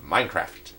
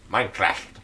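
First: Said in the usual way. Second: Light nerdy voice. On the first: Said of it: "I'll say it again". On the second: Shown as a demonstration. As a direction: say it like a nerd. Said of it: "That was my nerdy voice impression".

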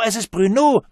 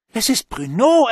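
First: Put-on high, loud child repeating the cry; child calling out. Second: Put-on high, loud excited child's shout; child calling out. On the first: The child calls Bruno's name again, high and loud. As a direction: call again like an excited kid. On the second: A child spots Bruno at the party, high excited call. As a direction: shout it like a thrilled kid. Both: A narrator's reading. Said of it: "rief eins der älteren Kinder".

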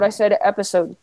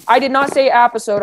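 First: Said in the usual way. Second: "episode" with a flat a, like "appisode"; mispronounced episode. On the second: Shown as a demonstration. Player denying the slip, "episode" said as "appisode". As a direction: open the first vowel of "episode" to "app".

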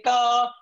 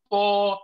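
First: Ta said light, with a smile; smiling light ta, mouth spread. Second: Ta said heavy, slowly, with a full mouth; heavy ta with a rounded full mouth. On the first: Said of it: "say ta". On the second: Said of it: "don't say ta". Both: Shown as a demonstration.

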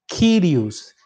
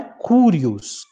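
First: Kyrios with the Y sounded as a Y, KEE-ree-os, not oo; correct pronunciation. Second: Curios with the Y read as U of uva, KOO-ree-os; wrong pronunciation. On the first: Teacher giving students the correct reading, Kyrios with Y sound. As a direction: say Kyrios with a clear ee-like Y, never oo. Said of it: "ele tem som de Y". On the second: Teacher warning students of the wrong reading, Curios with oo. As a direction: say Curios the mistaken way, with an oo sound. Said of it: "Quem lê Curios está lendo errado". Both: Shown as a demonstration.

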